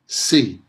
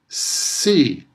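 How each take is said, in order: First: The sounds have their usual everyday length. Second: The sounds are stretched out longer than usual. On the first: "in everyday pronunciation" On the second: "I'm making the sounds longer than they usually are"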